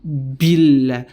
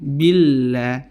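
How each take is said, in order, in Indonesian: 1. Huruf b keluar dengan hembusan udara. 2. Huruf b dilepaskan dengan lembut tanpa udara tambahan. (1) "terjadilah letupan udara yang keluar" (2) "Relax, ... Pertengahan"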